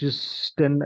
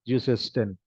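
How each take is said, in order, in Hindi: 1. s सीधे अंत में जुड़ जाता है, बीच में कोई स्वर नहीं। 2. s और अंत के बीच एक अतिरिक्त स्वर आता है। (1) "ऐसे नहीं बोल सकते ना" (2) "इसलिए हम ज्यूसेस्टिन"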